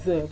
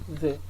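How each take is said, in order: First: The vowel is a full, strong vowel. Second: The vowel is reduced to a weak schwa.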